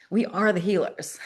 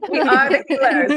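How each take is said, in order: First: It is said quietly and casually. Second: It is said loudly and with force.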